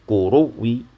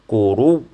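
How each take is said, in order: First: The word ends with a faint, partial vowel. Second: The word ends abruptly with no final vowel. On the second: "bacaan sukun"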